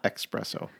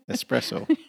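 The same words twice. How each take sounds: First: The word begins with an 'ex' sound. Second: The word begins with an 'es' sound. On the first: The speaker calls it wrong. "Not espresso. ... There's no X in there" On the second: The speaker calls it right. "There's no X in there"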